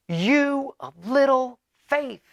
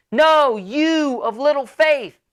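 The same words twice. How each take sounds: First: Slow, high, drawn-out rebuke; loud Jesus. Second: Slow, high, louder shouted rebuke; yelling over storm. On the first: Jesus teases his frightened disciples, mock loud slow rebuke. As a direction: stretch it out like calling over the storm. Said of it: "he says very loudly". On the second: Jesus repeats himself over the storm, slow loud yell. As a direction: bellow it slowly over the wind, teasing. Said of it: "he's yelling 'cause it's loud". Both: Retold or imitated.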